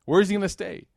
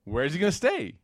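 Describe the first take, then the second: First: "Where" hit high and loud; louder emphatic repeat. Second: Said in the usual way. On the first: Shown as a demonstration. The teacher repeats the question to the class, stressing "Where". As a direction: push harder on "Where", higher and louder.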